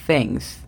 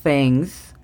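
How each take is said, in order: First: "Things" repetido, más suave, th soplada; th sound. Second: "Things" con la lengua entre los dientes, soplando; th sound. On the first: ("Things" repetido más suave) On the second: ("Things" con th soplada) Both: Shown as a demonstration. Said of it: "ponemos la lengua entre los dientes y soplamos".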